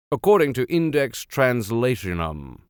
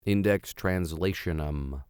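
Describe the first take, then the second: First: Said in the usual way. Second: Index Translationum spelled out slowly and softly; slow careful repeat. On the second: Shown as a demonstration. Reader practising the odd name, slow and careful. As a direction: sound out each syllable of Translationum. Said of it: "repeats it to get it right".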